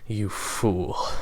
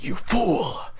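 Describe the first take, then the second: First: It is said laughingly, right after a laugh. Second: It is said in an angry, heated tone. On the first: "You could say it after a laugh" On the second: "you could say it in an angry"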